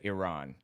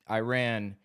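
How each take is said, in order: First: It is said the way Iranians pronounce it. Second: It is said with an anglicized American pronunciation. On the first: "Iranians pronounce it Iran" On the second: "an anglicization common in American English"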